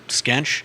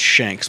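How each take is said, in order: First: It is said with "sk" and "ench," like "skench." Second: It is said with an "sh" sound, like "shanks." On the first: This is how local people say it. "locals pronounce it Skench" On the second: This is how the spelling would normally be read. "normally the way it's spelled would be pronounced Shanks"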